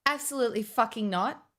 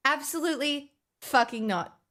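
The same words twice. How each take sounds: First: Said in the usual way. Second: The second Absolutely pitched higher and more insistent; emphatic repeat. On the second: Retold or imitated. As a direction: repeat the refusal, pushing Absolutely up. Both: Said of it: "I'm like".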